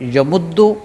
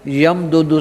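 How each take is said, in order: First: The two d sounds merge into one doubled d. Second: Two separate d sounds with a vowel between.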